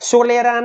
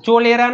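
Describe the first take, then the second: First: The word begins with an s sound. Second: The word begins with a ch sound. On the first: "સોલેરા નહીં" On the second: "ચોલેરા નહીં"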